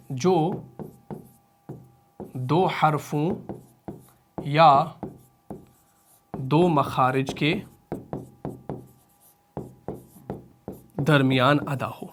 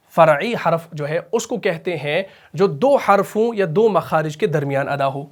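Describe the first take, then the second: First: Very slow and soft, long pauses between phrases; teacher dictating, slow and soft; slow dictation. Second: Said in the usual way. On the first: Shown as a demonstration. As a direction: dictate it word by word so students can write. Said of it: "same definition repeated". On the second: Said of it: "repeated slowly for dictation".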